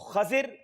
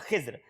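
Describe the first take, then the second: First: It has a after kh and i after z. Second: It has i after kh and no later vowel. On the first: "एक में खा के ऊपर जबर है, दौद के नीचे जेर है" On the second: "तीसरा तरीका यह है कि खा के नीचे जेर है"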